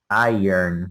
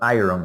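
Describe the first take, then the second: First: The R sound comes at the end. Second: The R sound comes in the middle. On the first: The speaker calls it right. "it is iron. The the R goes at the end" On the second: The speaker calls it wrong. "is not iron"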